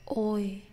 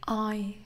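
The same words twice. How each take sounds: First: "oi" with more rounded lips, softer; English oi. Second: "I" with relaxed, flat lips, softer; Vietnamese diphthong. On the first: Teacher showing the English oi for contrast, soft and careful. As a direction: say "oi" as in toy, lips rounded, softly. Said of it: "When making the English oi, the lips are more rounded". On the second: Teacher contrasting Vietnamese sound with English oi, soft and careful. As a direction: say "I" with unrounded relaxed lips, softly. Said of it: "Let's compare". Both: Shown as a demonstration.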